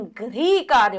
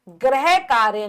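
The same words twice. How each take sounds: First: गृह कार्य as 'gri kaarya'; ri sound. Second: गृह कार्य as 'greh kaarya'; 'greh' in place of 'grih' in गृह; mispronounced गृह. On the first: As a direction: say गृह with a clear ri, 'grih'. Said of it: "री लगेगा". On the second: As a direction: say गृह wrongly with an e vowel, 'gra-he'. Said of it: "गृह कार्य नहीं". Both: Shown as a demonstration.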